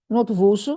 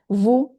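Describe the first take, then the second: First: The final s is pronounced. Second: The final s is silent. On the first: The speaker calls it wrong. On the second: The speaker calls it right. "So S is a con silent consonant"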